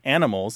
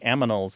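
First: The m and n sounds are in usual order. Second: The m and n sounds are swapped. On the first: The speaker calls it right. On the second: The speaker calls it wrong.

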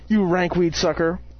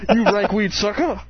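First: It is said in a plain voice. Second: It is said in a Mace Windu voice.

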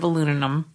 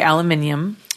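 First: The word is said as aluminum. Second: The word is said as aluminium. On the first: This is the form others usually use. "instead of aluminum" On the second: This is the form the speaker habitually uses. "I do say aluminium"

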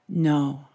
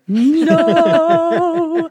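First: It is said quietly. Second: It is said loudly.

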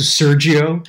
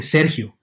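First: The name is said with an Italian accent. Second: The name is said with a Latino accent. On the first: The speaker calls it right. "as opposed to Sergio" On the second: The speaker calls it wrong. "I kept on calling Sergio"

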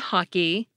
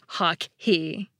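First: The K has no puff of breath. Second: The K has a puff of breath. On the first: It sounds like one single word. The speaker calls it right. "we get unaspirated P and K" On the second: It sounds like a pair of words. The speaker calls it wrong. "If we aspirated them"

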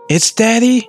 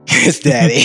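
First: The voice rises at the end like a question. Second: The voice falls at the end like a statement.

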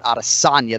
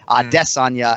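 First: The stress is on the third syllable. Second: The stress is on the second syllable. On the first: The speaker calls it wrong. "and not Adesanya, the third one" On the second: The speaker calls it right. "He's emphasizing that second syllable"

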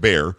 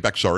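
First: The x sound is silent in the name. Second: The x sound is pronounced in the name. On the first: The speaker calls it right. "It's Bexar" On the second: The speaker calls it wrong. "Don't say Bexar"

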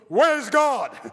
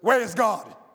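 First: It is said with a raised voice. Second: It is said at a normal loudness.

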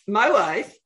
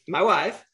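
First: It is said in a Borat impression. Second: It is said in his normal voice.

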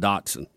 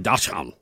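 First: It is pronounced the American English way. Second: It is pronounced the German way. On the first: "We're the ones that said dachshund" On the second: "They say dachshund"

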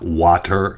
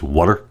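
First: Water is said with a general American vowel. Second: Water is said with a Philadelphia vowel. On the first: "It's not water" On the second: "if you're from Philadelphia and that area, it's water"

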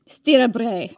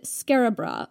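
First: It is said in a thick Scottish accent. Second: It is said in a plain everyday accent.

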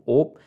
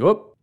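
First: It has a long 'oh' vowel, up-north Wisconsin style. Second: It has a short 'oo' vowel, like whoops.

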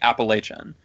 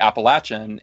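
First: The third syllable sounds like 'lay'. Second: The third syllable sounds like 'latch'. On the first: This is how the speaker said it growing up. The speaker calls it wrong. "I grew up when I was younger saying Appalachian" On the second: This is how people in the region say it. The speaker calls it right. "I heard people say Appalachian, ... it's like throwing Appalachia"

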